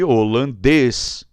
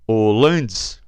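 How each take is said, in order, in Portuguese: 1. A tônica está na última sílaba. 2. A tônica está na penúltima sílaba. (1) "Desloquei aqui da dois para um" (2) "vai para dois"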